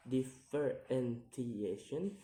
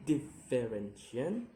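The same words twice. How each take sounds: First: "differentiation" slowly split into syllables; slow, separated syllables on "differentiation". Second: Said in the usual way. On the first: Shown as a demonstration. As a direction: sound out "differentiation" piece by piece. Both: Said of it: "count the word syllable backwards".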